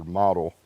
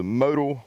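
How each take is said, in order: First: "model" said MAH-dul, with an open vowel; short-O pronunciation. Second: "modal" said MOH-dul, with a long O; long-O pronunciation. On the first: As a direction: give "model" the first vowel of "father". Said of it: "not really sure how to pronounce it". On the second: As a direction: give "modal" the O of "go". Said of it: "I say modal". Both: Shown as a demonstration.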